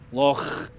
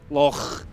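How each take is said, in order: First: It ends in a rough, throat-clearing sound. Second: It ends in a rough, throat-clearing sound.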